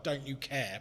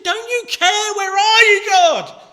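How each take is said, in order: First: Said in the usual way. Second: Much higher, much louder anguished yell at God; desperate shout. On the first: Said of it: "Have you ever said to God". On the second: Retold or imitated. A grieving believer shouting at God, anguished yell. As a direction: hurl it at the sky in despair. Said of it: "we can be shouting".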